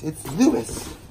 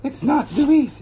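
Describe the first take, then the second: First: High mock correction, "Louis" said LOO-iss. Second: High mock scolding, "Louis" said LOO-ees; imitating correctors. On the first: Mimicking viewers who insist on their "Louis", in a mock correcting voice. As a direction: give "Louis" a short final iss, as if correcting. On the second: Mimicking viewers who correct the brand name, "Louis" rejected in high mockery. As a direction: whine "Louis" with a long ee, as the rejected way. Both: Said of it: "everybody correct me".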